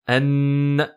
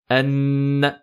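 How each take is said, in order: Both takes have the same delivery.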